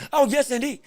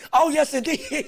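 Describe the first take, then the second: First: Said in the usual way. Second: "Oh, yes, indeed" breaking into a laugh; amused repeat dissolving into laughter. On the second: Real, not acted. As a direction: let the laugh take over the words.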